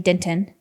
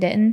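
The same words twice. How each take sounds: First: The t in the middle is clearly pronounced. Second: The t in the middle is dropped. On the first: "I don't say Denton" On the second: "I live in like live in Denton"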